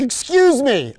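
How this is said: It sounds distracted and preoccupied. The speaker is busy with something else. "the distracted ones that are like"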